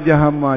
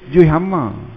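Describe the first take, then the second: First: Both words are run together into one word. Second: The first word is shortened to a clipped form. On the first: This is the name that came from slurring the phrase. "Itulah dia sebab panggil jahama tu" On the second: This is how people usually say it in everyday speech. "jaranglah kita sebut juzuk, kita kata juih"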